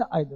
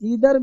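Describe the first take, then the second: First: The first vowel sounds like 'eye'. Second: The first vowel sounds like 'ee'. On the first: This is the usual way in India. "जो हिंदुस्तान में रहते हो तो आइदर पढ़ लो" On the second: The speaker wants to sound a bit more polished. "थोड़ा सा tone करना चाहते हो तो इधर पढ़ लो"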